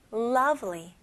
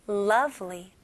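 The two takes are said the same way.

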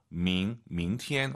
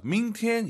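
First: 明天, rising tone on 明 first; correct second tone. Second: 明天 started too high; 明天 with 明 pitched high instead of rising; wrong tone. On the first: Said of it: "이성은 아". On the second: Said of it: "이게 아니에요". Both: Shown as a demonstration.

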